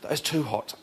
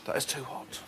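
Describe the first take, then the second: First: It is said with extreme pained intensity. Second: It is said with mild discomfort.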